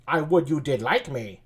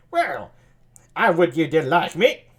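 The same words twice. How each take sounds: First: Said in the usual way. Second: Lightly sultry, teasing line; sultry Margaret. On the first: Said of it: "what kind of voice". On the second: Acted. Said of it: "maybe sultry voice like that".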